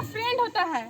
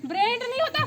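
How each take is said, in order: First: friend stressed, then a falling end. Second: brand as the wrong word, rising at the end; rejecting brand. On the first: Mother-in-law correcting the word, firm stress on friend. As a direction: land on friend as the right word. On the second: Mother-in-law correcting the word again, brand rejected with rising tune. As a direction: contrast brand, leaving the tune up. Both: Acted.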